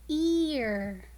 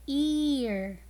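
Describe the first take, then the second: First: \"ear\" said slowly and clearly as a model word; modelled word ear. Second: \"Ear\" repeated clearly for the class; repeated model word ear. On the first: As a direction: say \"ear\" with a drawn-out long E. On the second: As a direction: echo \"Ear\" with the long E held. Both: Shown as a demonstration. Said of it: "the word ear has the long sound".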